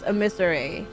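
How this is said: The word is said the British way. "Apparently the proper British pronunciation is emissary"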